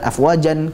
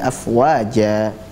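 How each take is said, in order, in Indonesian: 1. Kata itu berakhir dengan vokal pendek dan n. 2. Kata itu berakhir dengan vokal panjang terbuka. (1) "bukan afwajan kita baca" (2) "tapi afwaja ... dua harakat"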